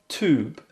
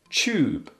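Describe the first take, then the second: First: It is said with an American accent. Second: It is said with a British accent.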